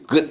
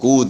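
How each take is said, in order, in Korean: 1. 이 단어는 보통 발음대로 읽습니다. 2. 이 단어는 철자대로 읽습니다. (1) "good 이렇게 읽잖아요" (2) "G-O-O-D인데 그러면 good 이렇게 good 이렇게 읽어야 되는데"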